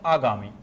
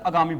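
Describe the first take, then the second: First: The first vowel is long. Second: The first vowel is short. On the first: The speaker calls it right. "जबकि होता है आगामी" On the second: The speaker calls it wrong. "लोग सामान्यतः आगामी बोल देते हैं"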